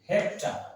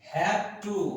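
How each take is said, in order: First: The words are blended into one short word. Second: Both words are said fully and separately.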